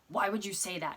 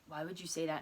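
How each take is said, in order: First: It is said in an odd, jarring tone. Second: It is said in an ordinary, natural tone.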